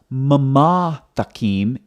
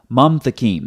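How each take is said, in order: First: The schwa is voiced, giving two syllables first. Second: The schwa is silent, giving one syllable first. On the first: The speaker calls it wrong. "not mama thakim" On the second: The speaker calls it right. "the schwa is silent"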